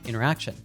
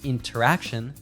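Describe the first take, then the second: First: The T sound after the N is dropped. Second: The T sound after the N is pronounced. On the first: "we often drop the T sound" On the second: "instead of saying"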